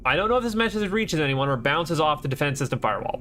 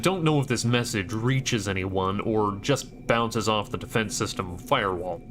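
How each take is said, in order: First: It is read in the speaker's own voice. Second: It is read in a put-on character voice. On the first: The speaker calls it wrong. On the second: The speaker calls it right.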